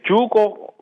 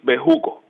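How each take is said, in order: First: The name is pronounced the English way. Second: The name is pronounced the Spanish way. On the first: "for all English speakers" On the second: "in Spanish is Bejuco"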